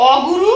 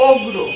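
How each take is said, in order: First: অগুরু with every vowel said, the উ between গ and র clear; teacher sounds out অগুরু in three syllables; full form demo. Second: অগ্রু with গ and র joined, no vowel between; teacher says অগ্রু as two syllables, the উ gone; vowel dropped demo. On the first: Teacher shows students the full অগুরু, said carefully. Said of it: "একটি উদাহরণ লক্ষ্য করো". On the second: Teacher shows students the shortened অগ্রু, vowel dropped. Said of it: "গয়ের সাথে কিন্তু রস্যকার যুক্ত". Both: Shown as a demonstration.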